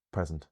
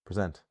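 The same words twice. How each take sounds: First: "present" stressed on the first syllable. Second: "present" stressed on the second syllable; quick "pre", weight on SENT in "present". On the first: Teacher asking which word it is, "present" with first-syllable stress. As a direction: lean on PRES in "present", short ending. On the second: Teacher offering the other reading, "present" with second-syllable stress. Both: Shown as a demonstration. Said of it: "how can I tell if it's".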